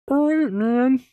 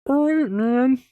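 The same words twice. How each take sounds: First: It is a high-pitched Muppet voice. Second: The same.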